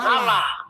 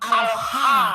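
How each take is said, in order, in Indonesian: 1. Berakhir dengan satu suku kata 'lah'. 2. Berakhir dengan suku kata 'ha' yang terpisah. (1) "bukan Allah" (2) "dibacanya sebenarnya kalau dalam ejaan kita itu bacanya al ha"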